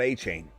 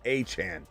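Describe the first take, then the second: First: The second syllable rhymes with 'rain'. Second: The second syllable rhymes with 'on'. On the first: The speaker calls it wrong. "not A Chain" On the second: The speaker calls it right. "Put some respect on his name"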